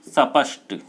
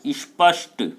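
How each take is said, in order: First: A short vowel follows the first s sound. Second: The s joins the p with no vowel. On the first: The speaker calls it wrong. "बहुत सारे लोग बोलते हैं स्पष्ट" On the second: The speaker calls it right. "भाषा का शुद्ध उच्चारण स्पष्ट"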